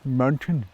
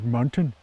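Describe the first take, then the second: First: It is said in a doddering, senile voice. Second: It is said in a doddering, senile voice.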